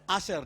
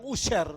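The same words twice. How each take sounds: First: "Asher" with an open AH first vowel; the proper word, "Asher" as AH-sher; corrected pronunciation. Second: "usher" with an OO first vowel; mispronounced usher. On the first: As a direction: say "Asher" starting with AH. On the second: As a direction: misread "usher" as OO-sher. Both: Shown as a demonstration. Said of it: "Asher, dibilang usher".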